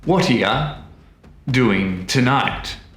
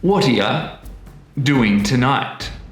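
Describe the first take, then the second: First: Words link together and 'you' weakens to 'ya'. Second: Words link together and 'you' weakens to 'ya'.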